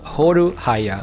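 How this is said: The name is said with Japanese-style syllables. "in Japanese they just they just say Horuhaya"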